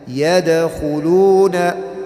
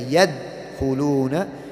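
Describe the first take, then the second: First: The d sound is released with a bounce. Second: The d sound is clipped short without release. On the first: The speaker calls it right. "we bounce off a letter" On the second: The speaker calls it wrong. "we don't say yad khuluna"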